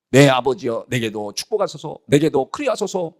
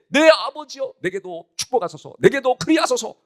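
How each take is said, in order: First: Said in the usual way. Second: High, wailing plea, acted out; tearful plea. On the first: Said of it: "에서가 아버지에게 이르되". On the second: Esau begs his father for a blessing, acted tearful plea. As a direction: beg a father in a raised, crying pitch. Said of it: "엉엉 울면서".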